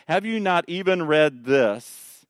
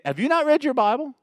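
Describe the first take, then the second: First: Said in the usual way. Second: Much higher, rising on "not" in disbelief; mock-amazed rebuke; incredulous challenge. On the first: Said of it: "I like the beginning of three". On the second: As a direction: ask "Have you not read your Bible?" with "not" lifted high and rising. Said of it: "So he's saying".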